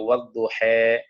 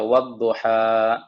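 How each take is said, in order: First: The final vowel is tilted toward an 'e'. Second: The final vowel is an open 'a' sound.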